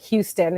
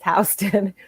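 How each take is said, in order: First: The street name is said the newcomer way. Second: The street name is said the local way. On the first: The speaker calls it wrong. "they always mispronounce the street. They think it's uh, called Houston" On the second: The speaker calls it right. "It's not. It's Houston"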